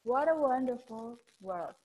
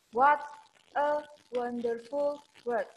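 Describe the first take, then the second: First: Smooth linked words. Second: Gliding, linked words. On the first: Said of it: "diseret kalau bahasa Jawa". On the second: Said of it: "say the words in a gliding form". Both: Shown as a demonstration.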